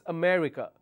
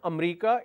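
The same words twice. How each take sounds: First: The word is said with four syllables. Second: The word is said with three syllables. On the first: The speaker calls it right. "there are four syllables in America" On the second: The speaker calls it wrong. "It's not America"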